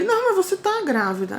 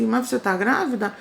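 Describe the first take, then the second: First: "Não" pushed high, insisting she is pregnant; retold doctor firmly insisting, higher; insistent doctor. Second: Said in the usual way. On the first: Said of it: "Aí ele". (médico insistindo, mais agudo) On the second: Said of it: "ele disse".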